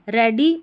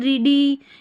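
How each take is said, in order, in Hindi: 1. पहला स्वर छोटे 'e' की आवाज़ है। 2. पहला स्वर लंबे 'ee' की आवाज़ है। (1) "ई ए का ए साउंड आ रहा है" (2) "ऐसे नहीं बोल रहे हैं ई ए को ई पढ़िए"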